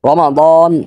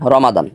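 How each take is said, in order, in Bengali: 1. এটি সতর্কভাবে, সুনির্দিষ্টভাবে উচ্চারিত হয়। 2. এটি আলগাভাবে, সাধারণভাবে উচ্চারিত হয়। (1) "এটা হলো খাস উচ্চারণ, মানে একেবারে বিশেষ উচ্চারণ" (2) "একেবারে কোন রকম উচ্চারণ হলো রমাদান"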